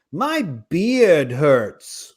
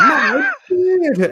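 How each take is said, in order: First: Put-on very slow, drawn-out little kid whine; child voice. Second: Put-on much higher, louder, slow squeaky kid voice; child voice. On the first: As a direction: drag each word out like a sulky kid. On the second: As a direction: squeak it out like a whiny little kid. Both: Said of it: "This is my impression of a kid with a beard".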